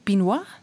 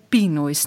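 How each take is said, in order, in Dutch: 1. De naam wordt niet-Engels uitgesproken. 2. De naam wordt Engels uitgesproken. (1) "niet Pinois? Naar jullie mama?" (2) "Ik spreek het toch op zijn Engels uit"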